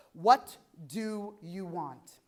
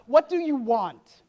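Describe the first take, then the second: First: Very slow, word by word; deliberate question. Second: Loud, slow challenge; emphatic question. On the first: Speaker asking listeners to sit with themselves, slow and deliberate. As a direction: let each word of the question sink in. Same question repeated for reflection. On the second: Speaker putting the next question to the audience, loud and emphatic. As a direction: throw the question out loudly, each word weighted. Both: Real, not acted.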